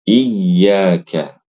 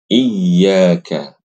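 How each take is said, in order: The two takes are said the same way.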